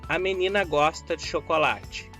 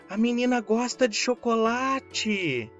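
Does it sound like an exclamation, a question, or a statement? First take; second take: statement; exclamation. First: It has a plain, level statement intonation. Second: It has a strong, emphatic exclaiming intonation. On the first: It states a fact. "É uma declaração" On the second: It expresses strong feeling about it. "É uma exclamação"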